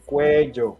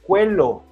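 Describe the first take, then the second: First: The double L sounds like an English J. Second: The double L sounds like an English L. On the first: The speaker calls it right. "double L is like a J sound" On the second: The speaker calls it wrong. "issues with the pronunciation of this word because they say cuello"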